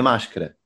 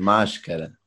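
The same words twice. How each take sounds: First: The word is said fast and reduced. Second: The word is said fully with every syllable. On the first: The speaker calls it wrong. "Mas não é máscara" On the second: The speaker calls it right. "é máscara"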